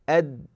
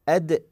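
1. تُحبس الدال الأخيرة بلا انفكاك مسموع. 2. تُنطق الدال الأخيرة مع قلقلة مسموعة. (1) "أما بدون القلقلة عفوا لا يوجد حرف" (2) "تكون هناك صفة القلقلة"

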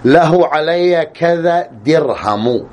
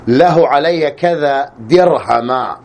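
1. تنتهي الكلمة الأخيرة بحركة قصيرة u. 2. تنتهي الكلمة الأخيرة بحركة قصيرة a. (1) "الرفع" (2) "النصب"

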